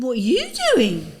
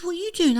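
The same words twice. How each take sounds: First: Louder, stressing "you" in "What are you doing?". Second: Higher, louder startled question with the stress on doing; a surprised "What are you doing?" with doing leaned on. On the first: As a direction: throw the question back, hitting "you". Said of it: "I said". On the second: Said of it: "he says". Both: Retold or imitated.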